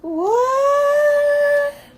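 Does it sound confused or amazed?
amazed. It sounds amazed and impressed.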